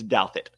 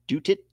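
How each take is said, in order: First: The first syllable sounds like 'dow'. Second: The first syllable sounds like 'doot'. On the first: The speaker calls it right. "It's Douthit. So like if you think Dow Jones" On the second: The speaker calls it wrong. "my bank has been butchering my name"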